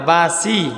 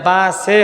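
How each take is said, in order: First: The second syllable ends with an 'ee' vowel. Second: The second syllable ends with an 'e' vowel. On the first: The speaker calls it right. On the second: The speaker calls it wrong. "এটা বা সে হবে না"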